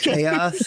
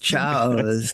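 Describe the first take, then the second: First: The word is said the standard way. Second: The word is said the way it's spelled. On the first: The speaker calls it right. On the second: The speaker calls it wrong.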